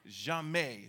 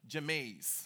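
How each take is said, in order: First: The final S sound is silent. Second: The final S sound is pronounced. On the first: The speaker calls it right. "So you won't say the S" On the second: The speaker calls it wrong. "that word does not become jamais"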